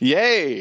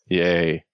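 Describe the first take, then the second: First: It is said with lively, excited enthusiasm. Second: It is said flatly, with little enthusiasm.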